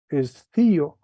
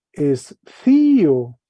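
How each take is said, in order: First: Said in the usual way. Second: Escío stretched very slowly and loud; slow model pronunciation. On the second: Shown as a demonstration. Teacher slowly reads Greek verb for class. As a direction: draw out escío, falling at the end. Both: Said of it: "entonces se lee".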